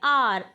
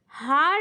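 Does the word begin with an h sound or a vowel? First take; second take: vowel; h sound. First: The word begins directly with a vowel sound. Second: The word begins with an h sound. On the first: The speaker calls it right. "इसको बोलते हैं आर" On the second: The speaker calls it wrong. "यहाँ पर हार नहीं बोलते हैं इसको"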